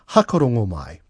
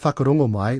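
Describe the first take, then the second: First: The first word begins with a plain 'h' sound. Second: The first word begins with a 'wh' sound. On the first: "So the W is dropped" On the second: "saying instead of whakarongo mai"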